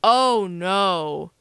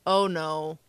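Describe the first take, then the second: First: Drawn-out, heavy "oh no" from dad; retold fatherly dismay, stretched out; dad's dismay. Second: Mild dismay, barely voiced up; retold own dismay. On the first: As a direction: imitate a dad dreading the damage, slowly. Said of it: "He saw the picture and was like". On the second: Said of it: "I'm like".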